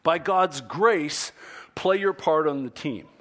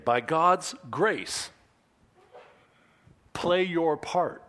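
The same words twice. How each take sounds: First: Louder, punchy GODS then YOUR; emphatic sermon point; emphatic restatement. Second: Slow stress on GODS and PLAY; slow and deliberate. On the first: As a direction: drive the point home. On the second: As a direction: spell out the sermon point slowly. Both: Shown as a demonstration. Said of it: "write this one down".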